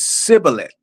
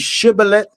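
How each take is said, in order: First: The word begins with an s sound. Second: The word begins with a sh sound. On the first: The speaker belongs to the other tribe. "the other tribe says sibboleth" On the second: The speaker belongs to one tribe. "one tribe was able to say shibboleth"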